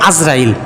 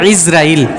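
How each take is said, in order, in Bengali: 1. নামটি 'a' স্বরধ্বনি দিয়ে শুরু হয়। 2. নামটি 'i' স্বরধ্বনি দিয়ে শুরু হয়। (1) "গলত মাশহুর যেটাকে বলে, ভুলটা প্রসিদ্ধ, আমরা বলি আজরাইল" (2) "সঠিক উচ্চারণ ইসরাইল, শেষে জের, শুরুতে আইনের মধ্যে জের"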